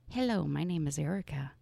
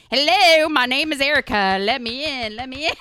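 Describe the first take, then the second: First: Said in the usual way. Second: Put-on louder, higher southern drawl, drunk and drawn out. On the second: Shown as a demonstration. Tipsy Erica knocking on doors in a loud southern drawl. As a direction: lean into a boozy Southern drawl. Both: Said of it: "southern drawl comes out".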